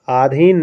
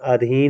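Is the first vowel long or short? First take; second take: long; short. First: The first vowel is long. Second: The first vowel is short. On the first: The speaker calls it wrong. "आधीन नहीं दोस्तों" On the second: The speaker calls it right. "अधीन होगा अधीन आ पर छोटा छोटा आ रहेगा"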